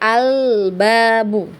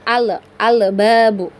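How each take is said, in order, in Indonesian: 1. Bunyi L mengalir halus ke bunyi berikutnya. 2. Bunyi L diakhiri dengan lepasan singkat yang memantul. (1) "dialirkan sedikit ya supaya tidak memantul" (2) "kadang itu ada pantulan ya"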